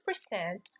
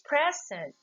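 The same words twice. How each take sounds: First: The stress is on the second syllable. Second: The stress is on the first syllable. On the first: It is a verb. "What is the rule of stress for verb? Again, it falls into the second syllable" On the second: It is an adjective. "The first one is describing herself that she's in that place"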